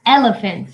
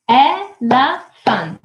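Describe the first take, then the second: First: Said in the usual way. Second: Very slow ELEPHANT, e... le... phant; syllable by syllable. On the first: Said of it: "What about elephant?". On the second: Shown as a demonstration. Teacher asking how many syllables, syllable by syllable. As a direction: break elephant into three drawn-out beats. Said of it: "How many syllables do we have?".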